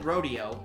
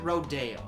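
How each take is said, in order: First: It is said like the cowboy event word. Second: It is said the way the street is named. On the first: "spelled it rodeo" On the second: "pronounced it rodeo"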